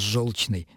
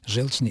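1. Гласная звучит как 'yo' (жёлчный). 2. Гласная звучит как 'e' (желчный). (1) "Оно должно произноситься именно «желчный»" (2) "это неправильно"

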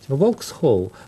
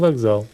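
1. Слово произносится с 'ks' и 'hol'. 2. Слово произносится с 'kz' и 'zal'. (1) "«Воксхолл» надо читать" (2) "стали читать по-французски, и получился «вокзал»"

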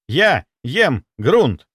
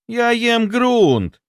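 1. Звучит как приказ. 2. Звучит как жалоба. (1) "Это приказ" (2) "Это жалоба"

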